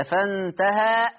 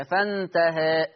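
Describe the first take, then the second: First: "فانتهى" slow, ending in an open long aa; recited "فانتهى" with full fatha ending; fath. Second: "فانتهى" slow, final aa tilted toward a long e; recited "فانتهى" with half-inclined ending; taqlil. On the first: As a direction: open the final vowel of "فانتهى" fully and hold it. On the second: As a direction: narrow the last vowel of "فانتهى" to eh and hold it. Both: Shown as a demonstration. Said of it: "الفتح أو التقليل".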